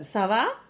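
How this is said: The pitch rises at the end, like a question. It asks how someone is. "how are you?"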